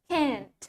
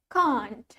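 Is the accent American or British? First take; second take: American; British. First: It is said in an American accent. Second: It is said in a British accent. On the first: "While in American English, we say it can't" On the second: "In British English, we pronounce it as can't"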